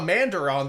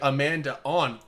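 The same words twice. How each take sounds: First: An R sound links the two words. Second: The words join with no R sound. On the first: "they would have the R in there" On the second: "we'd be like Amanda on"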